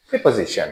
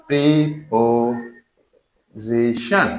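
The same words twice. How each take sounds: First: Said in the usual way. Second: preposition drawn out very slowly, syllable by syllable; slow teacherly breakdown of preposition into syllables. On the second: Shown as a demonstration. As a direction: stretch each syllable of preposition, with gaps between. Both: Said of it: "syllable করে".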